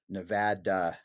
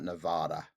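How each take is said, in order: First: Nevada is pronounced the way locals say it. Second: Nevada is pronounced the way outsiders say it. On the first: The speaker is from the area. The speaker calls it right. "It's Nevada" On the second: The speaker is not from the area. The speaker calls it wrong. "not Nevada. ... that's how we know you're not from here"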